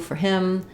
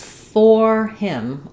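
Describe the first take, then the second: First: 'For' is reduced to an unstressed 'er' vowel. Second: 'For' has a full 'or' vowel, stressed. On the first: The word is unimportant. "these words get reduced to more of an er" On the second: The word carries emphasis. "with stress, I will use the full or sound"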